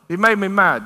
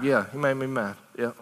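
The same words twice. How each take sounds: First: Firm, louder scolding; God scolding. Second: Softer, lower admission; soft confession. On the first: God rebuking his people, firm and pointed. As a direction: say it as a pointed accusation. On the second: God admitting his hurt to his people, soft and low. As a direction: let it fall quietly, almost hurt. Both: Acted.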